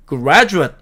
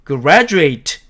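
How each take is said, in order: First: Graduate 끝을 짧게 '그래주엇'; noun graduate. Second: Graduate 끝을 '에이트'로 또렷이; verb graduate. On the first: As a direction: graduate 끝음절을 약하게 줄여 말하기. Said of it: "이렇게". (명사 graduate, 끝을 약하게) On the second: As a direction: graduate 끝음절을 eit로 분명하게. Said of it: "이렇게 발음한다는 뜻입니다". (동사 graduate, 에이트 발음) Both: Shown as a demonstration.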